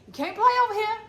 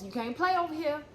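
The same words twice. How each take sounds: First: Third warning, pitched up and louder; raised final warning. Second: Said in the usual way. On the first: Retold or imitated. Warning folks a last time, louder and higher. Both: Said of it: "how many times I warned folks".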